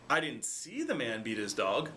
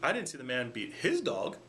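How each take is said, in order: First: The stress is on "see". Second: The stress is on "his".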